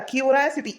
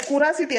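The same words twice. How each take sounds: First: ಕ್ಯೂರಾಸಿಟಿ with a clear kyoo glide at the start; correct pronunciation. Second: ಕುರಾಸಿಟಿ with a plain ku at the start; wrong pronunciation. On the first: Husband correcting his wife, ಕ್ಯೂರಾಸಿಟಿ with a kyoo glide. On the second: Husband mocking his wife's mispronunciation, ಕುರಾಸಿಟಿ with plain ku. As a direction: say ಕುರಾಸಿಟಿ as ku-raa-si-ti, the mistaken way. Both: Shown as a demonstration. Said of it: "ಅದು ಕುರಾಸಿಟಿ ಅಲ್ಲ".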